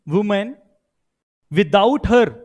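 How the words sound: It is said with pauses between words.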